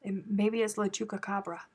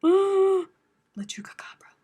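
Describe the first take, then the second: First: Said in the usual way. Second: Sharp gasp, then a high hushed "La Chupacabra"; hammed-up spooky gasp and whisper; gasped mock-horror whisper. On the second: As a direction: whisper "La Chupacabra" as if the monster is here.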